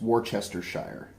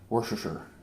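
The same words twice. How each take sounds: First: The word is said in a careful, formal pronunciation. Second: The word is said in a common, casual pronunciation. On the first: This is how it is properly pronounced. "It's Worcestershire. But you know what? Nobody says that" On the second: This is how people actually say it.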